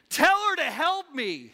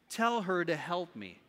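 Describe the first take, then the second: First: It is said in a demanding, exasperated tone. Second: It is read in a calm, plain tone.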